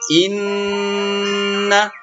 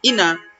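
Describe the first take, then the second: First: The n sound is held long and nasal. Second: The n sound is short and plain. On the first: The speaker calls it right. "dibaca dengung. Dengung itu maksudnya dilamakan" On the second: The speaker calls it wrong. "Tidak boleh ina"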